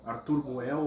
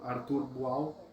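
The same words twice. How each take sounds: First: "Boel" said with an open "e", like "boo-ell"; pronúncia com E. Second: "Boal" said with an open "a", like "boo-ow"; pronúncia com A. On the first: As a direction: pronounce "Boel" ending in "ell". ("Boel" dito com E aberto, como "buéu") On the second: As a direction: pronounce "Boal" ending in "ow". ("Boal" dito com A aberto, como "buau") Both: Shown as a demonstration. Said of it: "se pronuncia Boal ou Be-, Boel".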